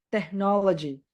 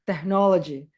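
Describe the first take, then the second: No difference in how they are said.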